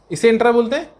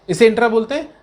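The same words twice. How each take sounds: The two takes are said the same way.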